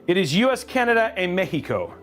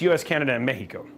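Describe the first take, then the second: First: It is said in a non-American accent. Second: It is said in an American accent.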